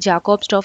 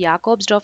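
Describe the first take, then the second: First: The name begins with a J sound. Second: The name begins with a Y sound. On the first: This is the usual Indian reading of the letter. "ఇండియాలో మనం జేని జే కిందే ప్రొనౌన్స్ చేస్తాం" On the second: This is the European reading of the letter.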